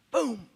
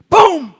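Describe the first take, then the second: First: Soft boom. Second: Boom! shouted high and loud. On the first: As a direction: drop the voice for Boom. Quiet boom, then loud boom. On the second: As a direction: punch out Boom! like a thunderclap. Loud boom after the quiet one. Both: Retold or imitated.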